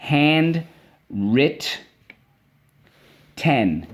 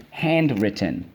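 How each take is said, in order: First: "Handwritten" split into hand, writ, ten; "Handwritten" in separate beats, starting high; syllable by syllable. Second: Said in the usual way. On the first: Shown as a demonstration. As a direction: dictate "Handwritten" with long gaps between syllables. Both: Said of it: "let's go".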